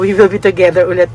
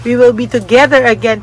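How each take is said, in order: First: Quickly rattling off the slip with ulit, a little lower; quick rerun of the slip. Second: Said in the usual way. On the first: Shown as a demonstration. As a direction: rush back through "We will be together ulit" as the mistaken Tagalog version. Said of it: "Parang, parang natagalog ko eh". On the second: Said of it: "naulit ko eh".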